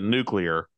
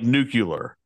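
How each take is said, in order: First: No extra 'u' sound comes before the L. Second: An extra 'u' sound comes before the L. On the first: The speaker calls it right. "There's only one way you should pronounce it. there's no extra U in it" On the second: The speaker calls it wrong. "which is not how you pronounce nuclear"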